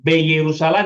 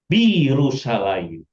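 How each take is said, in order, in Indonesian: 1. Awalan itu diucapkan dengan vokal mirip e. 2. Awalan itu diucapkan dengan vokal i. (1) "Bukan B Yerusalem" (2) "tapi bi Yerusalem"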